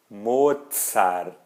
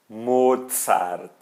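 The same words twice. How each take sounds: The two takes are said the same way.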